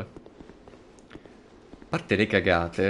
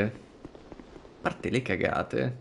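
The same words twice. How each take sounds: First: Drawn-out slow. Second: Very slow and hushed; slow soft trailing. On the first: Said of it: "repeated slowly". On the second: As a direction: stretch it out quietly. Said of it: "repeated softer". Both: Shown as a demonstration.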